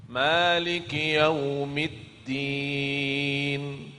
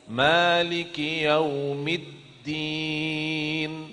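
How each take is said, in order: Both takes have the same delivery.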